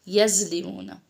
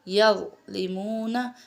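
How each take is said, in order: First: Buzzing z sound, lips not rounded. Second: Soft tongue-between-teeth sound, lips rounded. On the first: The speaker calls it wrong. "यज में एक तो जा और राल की साउंड आ जाएगी" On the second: The speaker calls it right. "नरमी से होंठों की गोलाई से अदा कीजिए"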